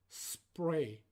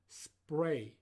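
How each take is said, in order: The two takes are said the same way.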